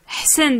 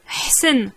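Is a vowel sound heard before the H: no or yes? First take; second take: no; no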